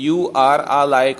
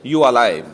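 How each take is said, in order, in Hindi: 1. 'are' का r वाली sound पूरी तरह बोली जाती है। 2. 'are' का r वाली साउंड पूरी तरह छोड़ दी जाती है। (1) "यू और आ के बीच में ही ना आर की साउंड" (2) "वो उसकी साउंड बीच में ही चुप गई है"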